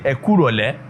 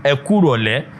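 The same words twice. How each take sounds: The two takes are said the same way.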